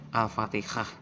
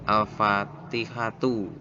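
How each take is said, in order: First: The word ends with an h sound. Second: The word ends with a tu syllable. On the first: "Al-fatihah bacanya itu" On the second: "lafalnya nih al-fatihatu"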